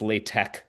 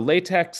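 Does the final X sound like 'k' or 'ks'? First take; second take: k; ks. First: The final X sounds like 'k'. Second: The final X sounds like 'ks'. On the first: The speaker calls it right. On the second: The speaker calls it wrong.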